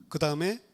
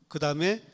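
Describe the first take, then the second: No difference in how they are said.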